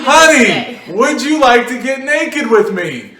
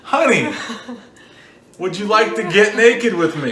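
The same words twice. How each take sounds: First: It is said much louder, almost yelled. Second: It is said at a normal speaking volume.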